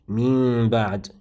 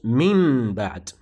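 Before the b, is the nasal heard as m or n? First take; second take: m; n. First: The n before b becomes a concealed m. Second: The n before b stays a clear n. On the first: The speaker calls it right. "it goes as such" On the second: The speaker calls it wrong. "you would not convert the noon to the meme"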